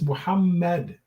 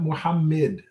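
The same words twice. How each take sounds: First: The vowel after the M is an 'a'. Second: The vowel after the M is an 'i'. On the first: The speaker calls it right. "there should be an A sound" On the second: The speaker calls it wrong. "you should not be saying an I sound after the M"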